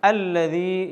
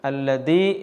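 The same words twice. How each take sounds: First: The middle consonant is a soft th sound. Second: The middle consonant is a hard d sound. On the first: The speaker calls it right. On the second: The speaker calls it wrong.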